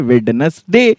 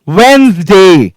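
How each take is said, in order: First: The d is pronounced, giving three syllables. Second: The d is silent, giving two syllables. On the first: The speaker calls it wrong. "मेरे भी teacher ने मुझे वेडनेसडे पढ़ाया था" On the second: The speaker calls it right. "पर actually ये होता ही नहीं है, इट्स वेंसडे"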